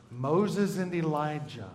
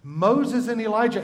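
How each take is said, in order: First: Teacher prompting the class; slow answer. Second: "Moses and Elijah" higher and louder; teacher confirming the answer; emphatic answer. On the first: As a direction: draw the answer out quietly. Answering own question to class. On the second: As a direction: proclaim the answer. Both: Shown as a demonstration.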